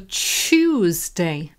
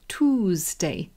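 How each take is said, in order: First: The word begins with a 'choo' sound. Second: The word begins with a 'too' sound. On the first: This is the form a major dictionary lists first. "there's also Chewsday" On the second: This is the American way of saying it. "they say Toosday"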